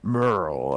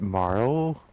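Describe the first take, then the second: First: The vowel sounds like the one in 'her'. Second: The vowel sounds like the one in 'car'. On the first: Someone else's way of saying it. "James went Merle" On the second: The speaker's own way of saying it. "I pronounce it Marl"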